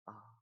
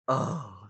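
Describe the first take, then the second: First: The sound is said softly and quietly. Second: The sound is said loudly and strongly. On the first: "now you try to say ah slowly" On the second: "But when I say it louder"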